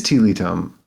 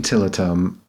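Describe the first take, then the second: First: Tilitum said as TEE-lee-tum, long ee; long ee in both first syllables of Tilitum; preferred pronunciation. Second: Tilitum said as TIL-uh-tum, short i; short first vowel in Tilitum, weak middle; possibly mistaken pronunciation. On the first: Co-host settling how the name is said, TEE-lee-tum. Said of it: "I think it is". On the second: Co-host admitting an earlier way of saying it, TIL-uh-tum. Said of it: "I might have been saying". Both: Shown as a demonstration.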